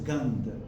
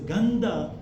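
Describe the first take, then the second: First: The word ends without a final vowel. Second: The word ends with a pronounced final vowel. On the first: The speaker calls it right. "we will pronounce it as Gandh" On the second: The speaker calls it wrong. "Instead of pronouncing it as Gandha"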